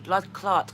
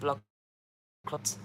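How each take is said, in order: First: The second word has a long 'clart' vowel. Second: The second word has a short 'clot' vowel. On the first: A Jamaican slang curse. The speaker calls it right. "C L A R T" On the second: A lump of blood. The speaker calls it wrong. "I never said blood clot"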